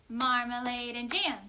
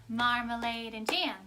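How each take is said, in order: No difference in how they are said.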